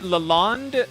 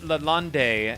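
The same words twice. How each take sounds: First: The name ends rhyming with blonde, no final vowel. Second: The name ends with an added vowel sound. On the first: "like blonde" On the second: "as in you pronounce like there's almost an accent over the e"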